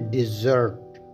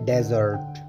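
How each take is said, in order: First: It begins with 'diz', a short 'i' sound. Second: It begins with 'dez', an open 'e' sound. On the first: It means to abandon someone. "As a verb डिज़र्ट pronounce करते हैं" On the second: It names a dry sandy region. "इस लफ्ज़ को हम pronounce करते हैं डेजर्ट"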